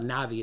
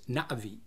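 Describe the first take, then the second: First: The vowels run together with no break. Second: There is a sharp break after the first vowel. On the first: The speaker calls it wrong. "It's not Navi" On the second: The speaker calls it right. "the correct pronunciation is Navi, where there's a sharp break after the A"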